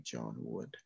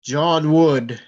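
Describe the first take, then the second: First: Much softer, sinking name; eerie hush. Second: Booming, louder call of a name; thundering voice. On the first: Spirit asks John if he knows it, hushed. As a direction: let the name fade into the deep. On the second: Possessed boy booms the name at John, thundering. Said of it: "His voice was like thunder". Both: Acted.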